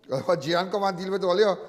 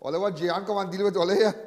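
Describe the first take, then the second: No difference in how they are said.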